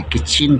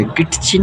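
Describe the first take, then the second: First: किचन said with the t silent, kitchen. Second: किचन with a t sound, kitchen; wrong t sound. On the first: Teacher showing kids the right किचन. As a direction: say किचन, no t sound. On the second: Teacher showing the wrong किचन to kids. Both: Shown as a demonstration. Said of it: "टी जो है यहाँ silent रहेगा".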